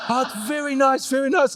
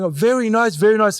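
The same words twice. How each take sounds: First: High, laughing "very nice" in a higher pitch; laughing imitation of a reluctant mum; mock mum through laughter. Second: Unimpressed mum. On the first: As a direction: imitate mum's grudging praise while laughing. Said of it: "before she goes". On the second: Retold or imitated. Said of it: "she'll be sitting there going".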